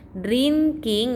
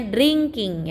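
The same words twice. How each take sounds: First: "Drinking" read as written, drin-king; plain n before k in "Drinking"; spelling pronunciation. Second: "drinking" with an ng sound, dring-king; nasal ng before the k in "drinking"; correct reading. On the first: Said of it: "itu dibacanya drinking". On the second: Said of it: "K-nya itu jadi, eh, eng". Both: Shown as a demonstration.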